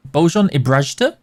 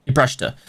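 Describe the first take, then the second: First: Bojan Ibrajta asked with a rising tune; unsure rising Bojan Ibrajta; questioning Ibrajta. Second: Ibrajta said with a falling tune; settled Ibrajta. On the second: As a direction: confirm Ibrajta firmly. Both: Shown as a demonstration.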